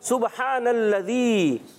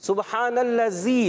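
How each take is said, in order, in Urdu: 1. 'dh' کی آواز واضح ادا ہوتی ہے۔ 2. 'dh' کی آواز واضح ادا نہیں ہوتی۔ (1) "زال زال" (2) "بعض بچے پڑھتے ہیں سبحان اللذی, کیا پڑھتے ہیں"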